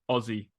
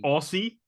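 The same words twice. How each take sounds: First: The middle consonant is a z sound. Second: The middle consonant is an s sound. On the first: It is how Australians say it. The speaker calls it right. "as in picture this O Z Z I E" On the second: It follows the spelling. The speaker calls it wrong. "when Americans say Aussie, but how it's spelled"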